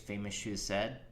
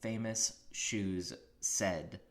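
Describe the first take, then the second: First: The words are slurred together quickly without pauses. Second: The words are separated by noticeable pauses. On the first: "slurred together in one quick sort of phrase" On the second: "a strange pausing intonation"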